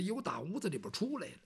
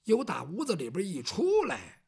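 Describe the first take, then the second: First: Fast, softer throwaway; a quick hushed aside. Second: Said in the usual way. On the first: Shown as a demonstration. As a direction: rush it out under the breath. Same line said twice.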